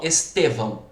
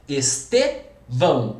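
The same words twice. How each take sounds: First: Said in the usual way. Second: "Estevão" slowly, pausing after stressed TE; split into syllables. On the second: Shown as a demonstration. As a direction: break "Estevão" into Es-te, then vão. ("Estevão" devagar, separando depois do TE) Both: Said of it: "É o T".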